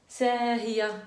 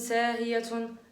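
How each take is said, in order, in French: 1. Le mot se termine doucement, sans aucun son t. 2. Le mot se termine par un t prononcé et -un. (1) "on dit" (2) "on dit pas"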